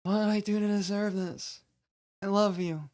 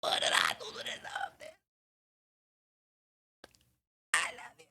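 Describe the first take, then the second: First: High-pitched, stilted overacted plea; hammy lovers' feud line, pitched up; bad acting. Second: Hushed whispered plea, very soft; intimate, barely voiced hurt whisper; good acting. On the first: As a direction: play it like a bad actor. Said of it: "here's the bad acting again". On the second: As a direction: whisper it as if truly in the feud. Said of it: "here's the good acting". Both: Shown as a demonstration.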